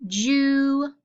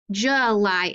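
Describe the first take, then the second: First: "July" drawn out as JOO, pause, LIE; long U. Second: "July" said as juh-LIE; schwa. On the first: Teacher testing the wrong reading on students, long-U "July". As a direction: split "July" with a long oo in the first part. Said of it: "Is that how we say that?". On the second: Teacher giving students the usual way, schwa "July". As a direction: make the u of "July" a short uh. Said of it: "is usually how we pronounce it". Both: Shown as a demonstration.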